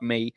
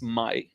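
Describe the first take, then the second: First: The name is pronounced the English way. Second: The name is pronounced the Hebrew way. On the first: The speaker calls it wrong. "not May, uh, like in English" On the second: The speaker calls it right. "her name is pronounced Mai in Hebrew"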